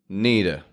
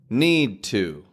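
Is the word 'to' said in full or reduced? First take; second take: reduced; full. First: The 'to' is reduced to a weak 'uh'. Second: The 'to' is pronounced fully and clearly.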